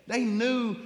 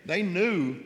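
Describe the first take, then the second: First: Much higher, near tears, voice cracking; voice breaking high. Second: Choked up. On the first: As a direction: let it break on the words They knew. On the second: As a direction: voice rising with held-back tears. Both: Real, not acted. Emotional testimony about grieving family.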